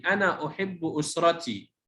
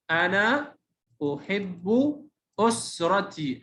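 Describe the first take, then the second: First: Said in the usual way. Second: أنا أحب أسرتي split up with pauses between words; separate, drawn-out words in أنا أحب أسرتي; word-by-word reading. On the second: Shown as a demonstration. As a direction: sound out أنا أحب أسرتي slowly for a beginner. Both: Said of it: "تهجأ".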